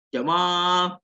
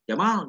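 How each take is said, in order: First: The vowel after the m is held long. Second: The vowel after the m is kept short. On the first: It means beautiful. "Itu harus panjang kalau manggil si Jamal" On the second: It means camel. "kalau mimnya tidak panjang"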